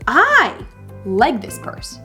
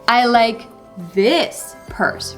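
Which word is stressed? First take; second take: I; this. First: The word "I" carries the stress. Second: The word "this" carries the stress. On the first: The speaker likes it even if others might not. "It's more like, I like it, even though you might not like it" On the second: It is this particular purse, not any other. "Not any other purse, but this particular purse"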